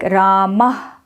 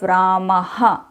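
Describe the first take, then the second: First: It ends in a short puff of breath. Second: It ends with an added 'ha' syllable. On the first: The speaker calls it right. "the right pronunciation of visarga" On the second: The speaker calls it wrong. "the South Indian way of aha"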